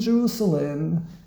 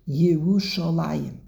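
First: The word ends in a short 'lem' syllable. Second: The word ends in a longer 'layim' syllable. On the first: This is the Aramaic form as it is spelled. The speaker calls it wrong. "he doesn't say Jerusalem, but there's another word that's not Hebrew, that is Aramaic" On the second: This is the full Hebrew form. The speaker calls it right. "We read it as if it was in Hebrew and it's with a Yud"

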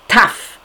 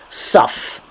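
First: It has a t sound and an a vowel. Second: It has an s sound and an o vowel. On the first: "like the Sfardim say"

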